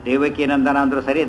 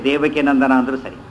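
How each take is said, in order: Both takes have the same delivery.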